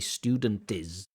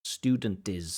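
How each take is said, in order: The two takes are said the same way.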